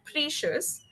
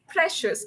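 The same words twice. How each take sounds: First: The first vowel is a long E sound. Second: The first vowel is a short E sound. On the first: The speaker calls it wrong. "It's not a long E. So you said precious" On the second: The speaker calls it right. "It's precious, a short E"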